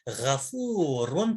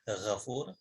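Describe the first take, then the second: First: The word ends with a vowel and n. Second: The word ends on a bare consonant. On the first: The word continues into following speech. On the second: The reader stops on this word.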